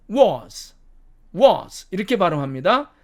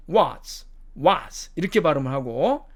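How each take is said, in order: First: "was" with a rounded o; British pronunciation. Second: "was" with an open ah, like "wahz"; American pronunciation. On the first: Teacher contrasting the sixth word, British pronunciation. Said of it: "영국식 발음으로 가면". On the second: Teacher modelling the sixth word, American pronunciation. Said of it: "미국식 발음으로는". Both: Shown as a demonstration.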